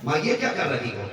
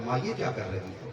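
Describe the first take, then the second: First: Same question with a sharper, impatient edge; "माँ, ये क्या कर रही हो?" pushed out, mildly annoyed; irritated tone. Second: Asked gently, a little softer, still patient; "माँ, ये क्या कर रही हो?" as a mild, patient question; polite complaint. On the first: Tired son snaps a little at his mother, mildly irritated. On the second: Son, woken again, gently asks his mother, patient. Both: Retold or imitated. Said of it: "देखो, लहजा बदल गया दो बार में".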